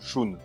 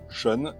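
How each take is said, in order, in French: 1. Le nom se prononce à la japonaise. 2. Le nom se prononce à la française. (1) "Je sais que la bonne prononciation c'est Shun" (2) "on est habitué à la prononciation de la V F"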